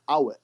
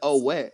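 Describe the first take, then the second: First: The first vowel sounds like 'ah'. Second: The first vowel sounds like 'oh'. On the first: The speaker calls it right. "It's Awet. It's way different" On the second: The speaker calls it wrong. "You said oh wet"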